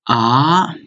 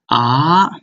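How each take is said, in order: Both takes have the same delivery.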